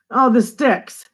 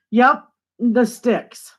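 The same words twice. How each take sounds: First: Said in the usual way. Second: Drawn-out sticks. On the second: Shown as a demonstration. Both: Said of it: "We call that the sticks".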